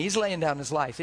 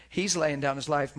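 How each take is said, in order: First: He's laying down his life with laying leaned on; stress on laying. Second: He's laying down his life with He's pushed first; stress on he's. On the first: Preacher to congregation, weight on laying. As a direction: lean on the word laying. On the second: Preacher repeating the line, now leaning on He's. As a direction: push the word He's. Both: Shown as a demonstration.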